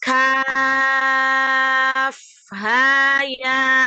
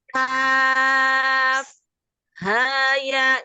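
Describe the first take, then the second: First: The letters run on without any break. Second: There is a short break after kaf. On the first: The speaker calls it right. "itu yang benar" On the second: The speaker calls it wrong. "jangan kaf, haya, nggak boleh berhenti"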